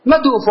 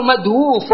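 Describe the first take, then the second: First: "مدوف" said as madūf, no w glide; regular contracted form. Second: "مدووف" said as madwūf, w sounded; uncontracted form. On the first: Teacher giving the form by the rule, "مدوف" shortened to madūf. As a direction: say "مدوف" in two simple syllables, ma-dūf. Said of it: "والقياس". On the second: Teacher contrasting usage with the rule, "مدووف" as madwūf. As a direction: keep the w and long ū in "مدووف": mad-wūf. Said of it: "فإذا قالوا مدووف والقياس". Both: Shown as a demonstration.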